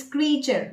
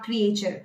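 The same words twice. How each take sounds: First: "creature" in two syllables, KREE-cher; correct pronunciation. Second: "creature" as three syllables, kree-AY-cher; wrong pronunciation. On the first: Coach correcting her students, correct pronunciation. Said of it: "but it's creature, not creature". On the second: Coach showing what to avoid, wrong pronunciation. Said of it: "not creature". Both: Shown as a demonstration.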